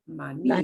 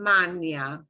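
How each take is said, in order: First: The stress falls on the accent-marked syllable. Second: The stress falls on a syllable without the accent. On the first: The speaker calls it right. "punch the syllable that gets the accent mark" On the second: The speaker calls it wrong.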